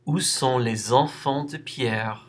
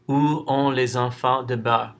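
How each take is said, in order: First: Every word, including sont and Pierre, is clearly pronounced. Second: The words sont and Pierre are garbled and unclear. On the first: The speaker calls it right. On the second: The speaker calls it wrong.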